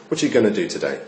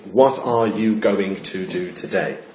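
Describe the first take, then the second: First: It is said casually, words run together. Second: It is said carefully, every word in full.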